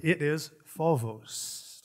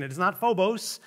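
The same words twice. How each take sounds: First: Phobos said slowly as fo-vos, b softened to v; Greek pronunciation. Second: Phobos said with a hard f-o-b-o-s, the church way; wrong pronunciation. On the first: Preacher correcting church, slow Greek phobos. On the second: Preacher showing the church's wrong way to say phobos. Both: Shown as a demonstration. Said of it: "the problem with their pronunciation".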